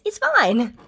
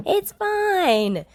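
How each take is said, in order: First: Said in the usual way. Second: High, louder bright cheer. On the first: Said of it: "June's take". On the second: A narrator's reading. Yamada cheers to June, high and loud. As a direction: cheer it happily. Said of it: "Yamada cheers".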